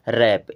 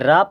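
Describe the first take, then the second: First: The vowel is a short 'ae' sound. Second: The vowel is a long 'ah' sound. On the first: The speaker calls it right. "बल्कि क्या पढ़ना है? रैप" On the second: The speaker calls it wrong. "इसे राप नहीं पढ़ना है"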